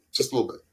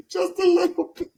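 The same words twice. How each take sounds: First: Said in the usual way. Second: Much higher and louder, laughing; high laughing demo. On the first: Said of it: "Just give us a little". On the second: Shown as a demonstration. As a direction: squeal it up high through a laugh. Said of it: "I'm a little loopy".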